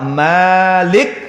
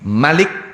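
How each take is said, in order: First: The first vowel is drawn out long. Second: The first vowel is said short. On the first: It means owner. "Kapan mime diwaca dawa" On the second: It means king. "kapan mime diwaca cendek"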